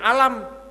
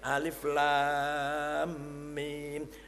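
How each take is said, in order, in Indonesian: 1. Huruf-hurufnya digabung menjadi satu kata pendek. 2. Setiap nama huruf diucapkan terpisah dan dipanjangkan. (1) "kalau nggak ada tajwid, alif lam mim dibacanya alam" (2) "Salah mas, bacanya yang ini alif lam mim, namanya mad lazim harfi musaqqal"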